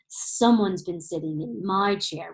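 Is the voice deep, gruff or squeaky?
deep. It is said in Daddy Bear's loud, deep roar.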